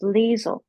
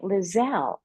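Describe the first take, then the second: First: The name ends with a short 'sl' syllable. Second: The name ends with a full 'zell' syllable. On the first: The speaker calls it right. "until you told me it was Liesl" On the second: The speaker calls it wrong. "I was pronouncing it Lizelle"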